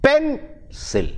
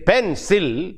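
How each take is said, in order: First: "pencil" stressed on the first syllable, PEN-cil; "pencil" said PEN-cil, the correct way; right stress. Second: "pencil" with the stress wrongly on "cil"; "pencil" said pen-CIL, as not to say it. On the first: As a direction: hit "pen" in "pencil" hard. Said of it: "we say pencil". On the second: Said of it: "We don't say pencil". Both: Shown as a demonstration.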